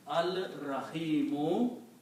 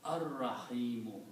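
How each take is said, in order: First: The L sound is clearly heard before the R. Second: The L is absorbed into a doubled R sound. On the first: "when you put Al, it becomes Al Rahimu" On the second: "the same thing will happen. You pronounce Ar Rahimu"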